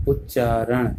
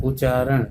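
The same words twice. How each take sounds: First: Said in the usual way. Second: उच्चारण with a single short च, u-chaaran; don't double the च in उच्चारण; misspelt reading. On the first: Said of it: "जबकि होता क्या है". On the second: Shown as a demonstration. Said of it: "ये क्या लिखा है". (उच्चारण को उ-चारण पढ़ें)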